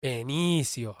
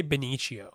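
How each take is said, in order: First: Benicio said ben-EE-see-oh; careful correct pronunciation. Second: Benicio said ben-EE-shee-oh; habitual mispronunciation. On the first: Practicing to fix a slip, Benicio as ben-EE-see-oh. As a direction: stretch Benicio out with a clear "s" sound. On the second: Admitting the habit to friends, Benicio mispronounced as ben-EE-shee-oh. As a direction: blur the "s" of Benicio into "sh" or "ch". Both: Shown as a demonstration. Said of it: "I always say Benicio".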